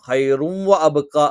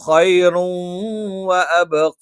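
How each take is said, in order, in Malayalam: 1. wa ക്ക് മുമ്പുള്ള നാസിക ശബ്ദം ചെറുതാണ്. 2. wa ക്ക് മുമ്പുള്ള നാസിക ശബ്ദം നീട്ടിയാണ് ഉച്ചരിക്കുന്നത്. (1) "എന്ന് പറഞ്ഞാൽ പോരാ" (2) "മണിക്കുക കൂടി വേണം"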